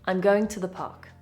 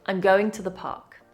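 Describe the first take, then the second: First: I'm is contracted and to is reduced. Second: I'm is contracted and to is reduced.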